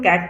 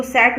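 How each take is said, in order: First: कैट with a hard K at the start; correct reading. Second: सैट with S in place of K; wrong reading. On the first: Teacher showing learners how cat is read, hard-K pronunciation. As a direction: open कैट on K, not S. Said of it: "कैट पढ़ेंगे". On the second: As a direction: misread cat as सैट, opening on S. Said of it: "इसको सैट नहीं पढ़ेंगे". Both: Shown as a demonstration.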